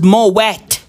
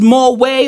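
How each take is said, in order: First: The word ends with a clear T sound. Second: The word ends without a T sound. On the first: "do you have to say it?" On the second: "is the T silent"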